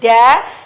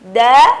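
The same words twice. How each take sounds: First: The consonant is released with a puff of breath. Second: The consonant is voiced cleanly without a puff of breath. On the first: The speaker calls it wrong. "terlafazkan e, keluarnya nafas" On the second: The speaker calls it right. "suara yang jernih tanpa beriringan dengan nafas"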